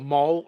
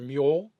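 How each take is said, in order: First: The vowel sounds like the one in 'mole'. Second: The vowel sounds like the one in 'mule'. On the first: "the Mole or Mule, depending on how you wanted to pronounce it" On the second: "the Mole or Mule, depending on how you wanted to pronounce it"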